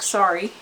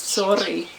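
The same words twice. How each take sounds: First: It is said with an English accent. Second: It is said with a Dutch accent. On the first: The speaker calls it wrong. "if I ever say it just like sorry" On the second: The speaker calls it right. "the Dutch word for sorry is sorry"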